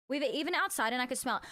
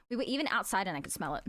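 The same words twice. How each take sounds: First: "We were" said "Ve vere", a German v. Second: Said in the usual way. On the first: Shown as a demonstration. Showing the German v slip to chat. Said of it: "Why do I keep saying V?". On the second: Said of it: "how did I say that?".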